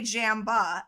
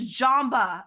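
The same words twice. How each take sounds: First: The first syllable sounds like the word 'jam'. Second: The first syllable does not sound like 'jam'. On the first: The speaker calls it wrong. "I read it as Jamba because I knew jam" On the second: The speaker calls it right. "I was made fun of. And they're like, it's Jamba"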